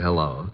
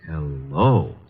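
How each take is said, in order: First: It is said in a plain, ordinary way. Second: It is said in an admiring, drawn-out way.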